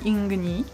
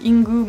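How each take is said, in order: First: The name is said with a vowel after g. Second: The name is said without a vowel after g. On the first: This follows how the name is written. "mais comme c'est écrit Ingni, je dis Inguni" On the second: This is the Japanese way to say it. "je crois qu'en japonais on dit Ingu"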